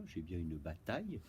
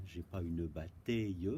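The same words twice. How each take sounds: First: "bataille" said correctly as bataj, with a clear a; correct pronunciation. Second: "bataille" said wrongly as "batèille", with an è sound before the ille; wrong pronunciation. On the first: Teacher showing pupils the right "bataille" as bataj. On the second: Teacher showing pupils the wrong "bataille" as batèille. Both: Shown as a demonstration.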